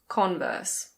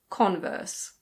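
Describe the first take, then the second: Both takes have the same delivery.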